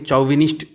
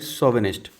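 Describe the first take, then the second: First: The word begins with a 'ch' sound. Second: The word begins with an 'sh' sound. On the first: The speaker calls it wrong. "जैसे अगर पढ़ेंगे चौविनिस्ट type, but this is not the correct pronunciation" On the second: The speaker calls it right. "You have to pronounce it like शोविनिस्ट"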